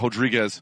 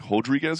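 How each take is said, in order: First: The name begins with an R sound. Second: The name begins with an H sound.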